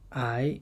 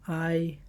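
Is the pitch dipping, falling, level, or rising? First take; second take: rising; level. First: The pitch rises from middle to high. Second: The pitch stays high and level.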